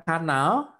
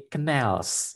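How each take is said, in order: First: KANAL read as spelt, "KA-nal" with full a; mispronounced canal. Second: CANALS with the weight on the second syllable, "kuh-NALS"; corrected canals. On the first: Teacher shows students the mistaken reading, KANAL as "KA-nal". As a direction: say KANAL the Indonesian way, both a's open. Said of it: "Membacanya bukan kanal". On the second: Teacher corrects students' reading, CANALS as "kuh-NELS". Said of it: "bisa diperbaiki menjadi canals". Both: Shown as a demonstration.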